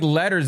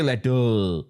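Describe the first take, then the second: First: "letters" with the R and S sounded; "letters" as standardly pronounced; standard pronunciation. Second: "letter" stretched slowly into "let-ol"; "letter" as a drawn-out South Bombay "lettol"; South Bombay pronunciation. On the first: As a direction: say "letters" higher, ending in a normal "-ers". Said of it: "They don't even say". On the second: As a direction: mockingly drag "letter" out with no R. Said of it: "They'll say". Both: Shown as a demonstration.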